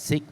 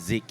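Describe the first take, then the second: First: The name begins with a hissing S sound. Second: The name begins with a buzzing Z sound. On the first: The speaker calls it wrong. "they don't really pronounce as SICK" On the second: The speaker calls it right. "it's actually pronounced as ZIG"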